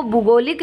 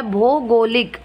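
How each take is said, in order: First: भूगोलिक with short u in first syllable; falsche Form. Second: भौगोलिक with long o/au in first syllable; double matra. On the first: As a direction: say भूगोलिक opening on bhu, not bhau. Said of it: "जबकि होता है भौगोलिक". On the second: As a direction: say भौगोलिक opening on bhau, not bhu. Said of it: "भो के अंदर double मात्रा". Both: Shown as a demonstration.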